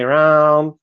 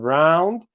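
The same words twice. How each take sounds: First: "round" with no d; dropped final d. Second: "round" with a clear final d, rising; "round" in full; final d kept. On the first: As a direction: stop "round" on the n. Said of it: "You say". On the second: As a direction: finish "round" on the d. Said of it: "instead of". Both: Shown as a demonstration.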